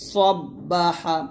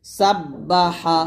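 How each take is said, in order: First: সব্বাহা very slow with a thick স; heavy sa, slow. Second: সাব্বাহা very slow, light and thin. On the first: Teacher repeating the heavy সব্বাহা slowly. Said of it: "আর এটা সব্বা". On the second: Teacher repeating the thin সাব্বাহা slowly. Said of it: "এখানে সাব্বা". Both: Shown as a demonstration.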